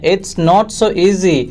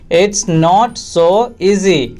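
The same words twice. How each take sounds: First: Said in the usual way. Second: Very slow, pause before "easy"; slow repeat. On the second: Shown as a demonstration. Teacher repeating for English learners, slowly segmented. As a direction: separate every word for learners.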